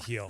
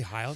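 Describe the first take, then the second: First: The vowel sounds like 'ee'. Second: The vowel sounds like 'eye'. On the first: The speaker calls it wrong. "not a Heal" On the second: The speaker calls it right. "they say Heil"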